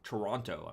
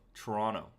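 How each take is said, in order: First: Every syllable is said out in full. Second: It is said fast with syllables squeezed together. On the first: The speaker is not from the city. "I'm saying it like I'm I'm not from there" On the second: The speaker is from the city. "If you're from there, you say Toronto"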